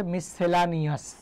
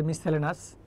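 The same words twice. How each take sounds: First: মিসসেলানিয়াস slowly, with full "-la-ni-as"; English pronunciation. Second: মিস সেলেনাস run together, ending in "-lenas"; everyday local pronunciation. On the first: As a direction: sound out every syllable of মিসসেলানিয়াস. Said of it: "ইংরেজিতে আপনি উচ্চারণ করেন কীভাবে". (মিসসেলানিয়াস ধীরে, ইংরেজি উচ্চারণে) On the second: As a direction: say মিস সেলেনাস the common shortened way, without "-ia-". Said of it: "উচ্চারণ আমরা করি এইভাবে". (মিস সেলেনাস চলতি সংক্ষিপ্ত উচ্চারণে) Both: Shown as a demonstration.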